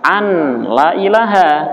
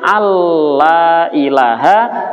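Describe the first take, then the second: First: A separate n sound comes before the l. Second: The n merges into a doubled l sound. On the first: The speaker calls it wrong. "malah dibaca" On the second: The speaker calls it right.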